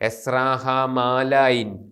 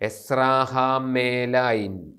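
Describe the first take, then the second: First: The vowel after the m is 'a'. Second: The vowel after the m is 'e'. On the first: "ആ സ്വരം കൊടുത്തും ഉച്ചരിക്കാറുണ്ട്" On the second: "മീമിന് ഒരു എ സ്വരം കൊടുക്കുന്നു"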